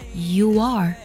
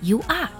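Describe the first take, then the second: First: A w-like glide links the two words. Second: The two words are said apart without a glide. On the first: The speaker calls it right. "加一个半元音窝……而是you are" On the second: The speaker calls it wrong. "不要读作you are"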